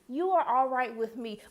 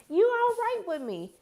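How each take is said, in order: First: Said in the usual way. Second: High, sing-song approval; a high, sing-song "you all right with me"; playful approval. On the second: Shown as a demonstration. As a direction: tease him with a high, playful pat on the back.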